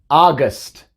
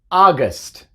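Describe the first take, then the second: Both takes have the same delivery.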